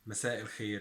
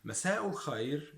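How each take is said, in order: First: مساء الخير as "masa' il-kheer", lower; Egyptian pronunciation. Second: مساء الخير as "masa'u l-khayr"; Standard Arabic pronunciation. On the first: Teacher sums up dialect good evening, Egyptian pronunciation. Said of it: "in Egyptian dialect". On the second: Teacher sums up formal good evening, Standard Arabic pronunciation. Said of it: "in standard Arabic". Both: Shown as a demonstration.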